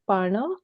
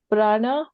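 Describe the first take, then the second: First: The word begins with par, r after the vowel. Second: The word begins with the cluster pra. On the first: This is how the Marathi speaker said it. "whereas I said parna" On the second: This is how the Hindi speaker said it. "Suman said prana"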